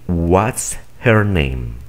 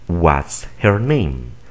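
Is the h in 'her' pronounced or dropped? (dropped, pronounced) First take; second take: pronounced; pronounced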